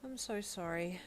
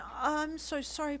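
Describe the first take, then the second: First: A quiet, heavy-hearted apology; quietly sad. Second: Higher, slow pleading apology; a high, urgent plea to a crying girlfriend. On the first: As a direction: let the sorrow pull it down gently. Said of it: "he stated sadly". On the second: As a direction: beg her to forgive you. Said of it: "Deku pleaded". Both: Acted.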